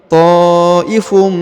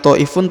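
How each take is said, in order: First: The word ends with a nasal m sound. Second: The word ends with a clear n sound. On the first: The speaker calls it right. "tapi ta'ifum" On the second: The speaker calls it wrong. "bukan lagi ta'ifun"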